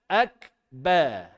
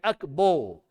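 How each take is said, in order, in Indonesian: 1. Vokal terakhir berbunyi 'ah'. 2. Vokal terakhir berbunyi 'oh'. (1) "Kemudian ak akba" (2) "Jangan akbo"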